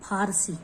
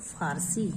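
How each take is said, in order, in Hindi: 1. पहली ध्वनि महाप्राण 'ph' है। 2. पहली ध्वनि 'f' है।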